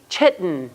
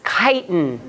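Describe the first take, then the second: First: The word begins with a ch sound. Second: The word begins with a k sound. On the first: The speaker calls it wrong. "Please do not say chitten" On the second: The speaker calls it right. "this is the k sound, not the ch sound"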